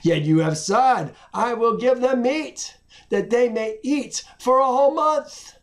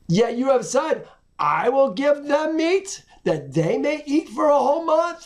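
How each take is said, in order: First: It is read as a plain statement. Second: It is read as a doubtful question.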